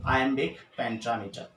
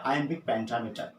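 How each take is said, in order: First: Slow and careful. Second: Said in the usual way. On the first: Shown as a demonstration. Teacher slowly spelling out the term for students. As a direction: say iambic pentameter very slowly, every syllable clear.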